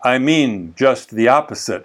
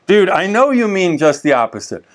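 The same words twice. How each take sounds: First: Lower, lightly imitated Creole accent. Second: Said in the usual way. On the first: Haitian pastor explaining his sarcasm, light Creole accent. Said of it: "with his Creole accent".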